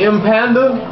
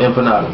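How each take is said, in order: First: The word is said in a mangled way. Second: The word is said the standard way. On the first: The speaker calls it wrong. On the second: The speaker calls it right.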